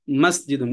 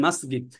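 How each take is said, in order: First: মসজিদুন with a "j" sound, mas-ji-dun; standard Arabic pronunciation. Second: মসজিদ with a hard g, "masgid"; Egyptian pronunciation. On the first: Teacher modelling standard Arabic, মসজিদুন said with a j. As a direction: say মসজিদুন with a clear j in the middle. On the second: Teacher showing how Egypt says it, মসজিদ as "masgid". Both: Shown as a demonstration. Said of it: "মিশরে এটা বলে".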